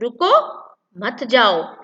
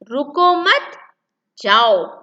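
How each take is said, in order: First: The pause comes after रुको, meaning don't go. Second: The pause comes after मत, meaning go.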